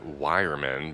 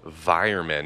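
First: The name begins with a W sound. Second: The name begins with a V sound. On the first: The speaker calls it wrong. "not Weiermann because of the W" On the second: The speaker calls it right. "It's also called Weiermann"

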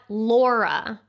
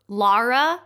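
First: The first vowel sounds like the vowel in law. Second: The first vowel sounds like the vowel in car. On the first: The speaker calls it wrong. "not Laura" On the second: The speaker calls it right. "Lara is pronounced like you would pronounce car"

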